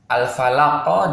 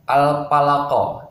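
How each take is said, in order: First: The consonant after al is an f sound. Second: The consonant after al is a p sound. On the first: The speaker calls it right. "huruf fa" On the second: The speaker calls it wrong. "diganti dengan huruf p... Itu tidak boleh ya"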